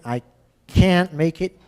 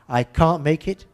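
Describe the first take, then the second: First: It is said in an American English accent. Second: It is said in a British English accent. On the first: "The American" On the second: "There's the English"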